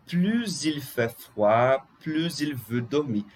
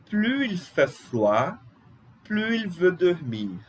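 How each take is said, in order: First: "plus il" said as "pluz il"; liaison with Z. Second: "plus il" said as "plu il", S silent; slow and higher, leave the S of "plus" silent before "il"; no liaison. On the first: Teacher showing second option, "plus il" with Z liaison. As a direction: link the S of "plus" as Z into "il". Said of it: "ligar o S com a vogal". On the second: Teacher showing first option, "plus il" without S. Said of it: "tirando o S". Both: Shown as a demonstration.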